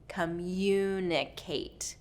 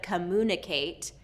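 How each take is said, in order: First: A Y glide comes before the U sound. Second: No Y glide comes before the U sound. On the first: The speaker calls it right. "we're going to go" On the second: The speaker calls it wrong. "instead of"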